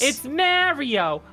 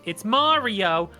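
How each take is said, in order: First: The name is said the New Jersey way. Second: The name is said the standard video game way. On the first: It refers to a real guy named Mario. "if you're from goddamn fucking New Jersey" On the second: It refers to the video game character. "If you are talking about the video game character and how it's pronounced"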